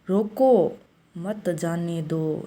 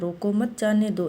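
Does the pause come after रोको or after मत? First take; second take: after रोको; after मत. First: The pause comes right after रोको. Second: The pause comes right after मत.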